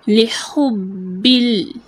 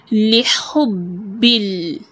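Both takes have the same delivery.

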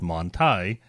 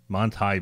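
First: The name is pronounced the American way. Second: The name is pronounced the German way. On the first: This is how people commonly say it in the U.S. The speaker calls it wrong. "what I hear pronounced here in the U.S. as Manti" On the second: This is how the company's own people say it. The speaker calls it right. "Why is the company name Manti pronounced Manti"

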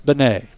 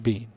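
First: The name is said as Benet. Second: The name is said as Bean. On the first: The speaker calls it right. "Coach said it's Benet" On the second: The speaker calls it wrong. "Don't say Bean"

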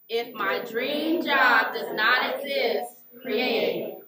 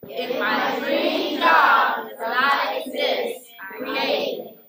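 First: It is said with ordinary, lower energy. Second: It is said with more energy.

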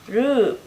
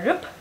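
First: The vowel is drawn out long. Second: The vowel is short and clipped. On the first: The speaker calls it right. "Mình kéo dài một xíu ngay chữ u, rồi mình di chuyển qua âm p ha" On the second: The speaker calls it wrong. "mình không đọc là rup, rup thì nó là âm u ngắn rồi ha"

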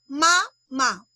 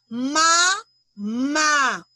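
First: The stress is on the first syllable. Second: The stress is on the last syllable.

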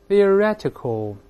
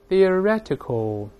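The two takes are said the same way.

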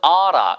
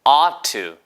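First: The two words are run together into one. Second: The two words are separated, ending in a clear to. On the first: "어라 이렇게 발음하는 미국인들도 있습니다" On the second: "OUGHT 띄고 TO까지 발음해 드린 거예요"

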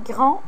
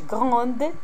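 First: The word ends without a d sound. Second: The word ends with an audible d sound. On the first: The speaker calls it right. "هنا غران" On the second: The speaker calls it wrong. "ما كنقولوش غروند"

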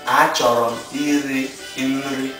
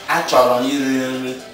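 First: It is said slowly. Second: It is said at normal speed.

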